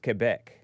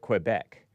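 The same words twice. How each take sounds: First: The name gets a French-style pronunciation. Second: The name gets an English-style pronunciation. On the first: This is how it is properly said. The speaker calls it right. "but it's Quebec" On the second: This is how it was said as children. The speaker calls it wrong. "we called it Quebec"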